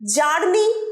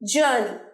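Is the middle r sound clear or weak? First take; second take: clear; weak. First: The middle r sound is clearly pronounced. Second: The middle r sound is barely pronounced. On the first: The speaker calls it wrong. "জার্নি বলবে না" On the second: The speaker calls it right. "মাঝের রটা খুব একটা স্পষ্ট উচ্চারণ হয় না"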